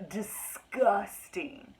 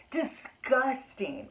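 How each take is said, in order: First: Disgusted. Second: Disgusted drawl. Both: Real, not acted.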